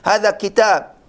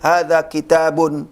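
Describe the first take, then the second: First: The final -un ending is dropped. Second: The final -un ending is pronounced. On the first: It is easier and faster to say. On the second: It helps learners get used to the endings. "diucapkan tanwinnya"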